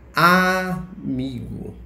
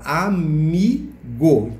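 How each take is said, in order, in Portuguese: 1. A tônica não está na sílaba do meio. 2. A tônica está na sílaba do meio. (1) "A gente não fala amigo" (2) "A gente fala amigo"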